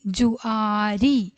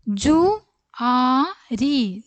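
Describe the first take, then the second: First: Said in the usual way. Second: ജുആരി stretched out slowly; slow drill. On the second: Shown as a demonstration. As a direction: sound out ജുആരി for the class. Teacher slow model word. (ജുആരി പതുക്കെ നീട്ടി)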